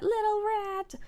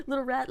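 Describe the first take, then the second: First: Much higher, drawn-out cooing; high doting singsong; high-pitched coo. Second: Said in the usual way. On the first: Real, not acted. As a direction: coo it high, as at a tiny pet. Cooing at the rat.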